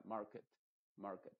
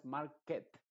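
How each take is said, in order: First: Market with a dull reduced vowel, MAR-kit; muted E market. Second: Market with a wide open E, MAR-ket; the wrong, over-clear market. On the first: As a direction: swallow the E in market. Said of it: "una E más apagada". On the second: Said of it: "no es market". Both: Shown as a demonstration.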